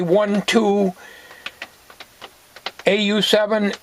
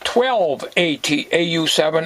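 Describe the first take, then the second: First: The first number is read as one two. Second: The first number is read as twelve. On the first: The speaker calls it wrong. "they say one two A U seven" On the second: The speaker calls it right. "It's twelve A U seven"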